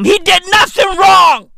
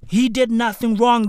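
First: Loud, high outraged shout. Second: Said in the usual way. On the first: Acted. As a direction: yell it in mock outrage. Comic rant defending Kurt Zuma.

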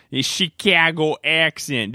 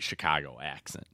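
First: Broad, slow Chicago accent, pitched up; bad Chicago accent. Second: Said in the usual way. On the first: Shown as a demonstration. Host showing off Grocery Store Joe's accent, hammed-up Chicago accent. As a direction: put on a loud, exaggerated Chicago accent. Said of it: "This is what your Chicago accent is".

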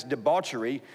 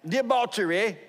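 First: Said in the usual way. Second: High-pitched British attempt at debauchery; British accent. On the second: Shown as a demonstration. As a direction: try a showy British "debauchery". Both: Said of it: "I just can't say it that way".

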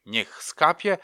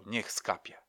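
First: Louder, higher ritual chant with a rise at the end; solemn mother's loud ritual call, lifting on „skapie”; incantation. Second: Quiet group response, stressing „Niech”; murmured repeat. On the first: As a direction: intone it like a spell over the candle. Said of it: "mówiła". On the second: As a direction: mutter it back like a congregation. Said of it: "każdy z was powtarzał". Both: Retold or imitated.

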